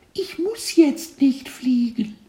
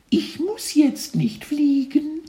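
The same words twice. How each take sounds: First: Very high whispery little voice, slow; cartoon kid voice. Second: Very high little voice, slow, stress on jetzt; cheeky caterpillar, rising at end; cartoon kid voice. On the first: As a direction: stress on nicht, cheeky tiny caterpillar. Caterpillar answers teacher. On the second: Caterpillar repeats line. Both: A narrator's reading.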